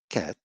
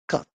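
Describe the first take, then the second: First: The vowel is open, as in cat. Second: The vowel is short, as in cut.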